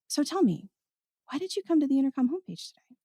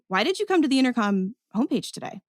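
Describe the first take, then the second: First: The tone is soft and inviting. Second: The tone is curious but judgmental.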